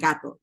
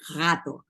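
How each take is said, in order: First: The g is a hard, stopped sound. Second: The g is a drawn-out, breathy sound. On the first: This is how people outside the area say it. "Ellos no dicen gato" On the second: This is how locals of the coast say it. "dicen gato, ¿no? Arrastran la, la G"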